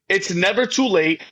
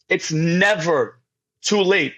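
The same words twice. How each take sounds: First: Said in the usual way. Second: "never" drawn out slowly, then a pause; slow, weighty stress on "never"; emphatic repeat. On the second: Real, not acted. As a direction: stretch "never", pause, then land "too late".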